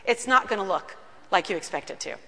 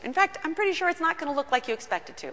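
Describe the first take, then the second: First: Lower, deliberate, stress on not; slow emphatic warning. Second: Quick, tumbling assurance; rushed aside. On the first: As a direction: lean on not and land it lower. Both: Shown as a demonstration. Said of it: "Let me just tell you".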